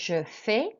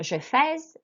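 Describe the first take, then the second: First: The word ends on a vowel sound. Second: The word ends with an audible consonant. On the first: The speaker calls it right. "we don't pronounce consonants at the end" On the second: The speaker calls it wrong.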